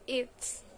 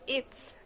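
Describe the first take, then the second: First: The words are merged into one short form. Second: The words are merged into one short form.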